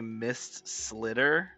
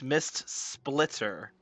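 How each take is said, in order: First: The second word is said without a 'p' sound. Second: The second word is said with a 'p' sound. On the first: The speaker calls it wrong. "Why does everyone say Mist Slitter?" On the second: The speaker calls it right. "It's Mist Splitter"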